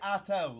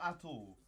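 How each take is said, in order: First: The middle of the name sounds like 'tau'. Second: The middle of the name does not sound like 'tau'. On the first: The speaker calls it right. "It's obviously Atul, like Tau" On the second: The speaker calls it wrong. "not Atul"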